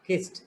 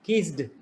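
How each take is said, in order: First: The word ends in a t sound. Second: The word does not end in a t sound. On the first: The speaker calls it right. "T, kissed" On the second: The speaker calls it wrong. "not kissed"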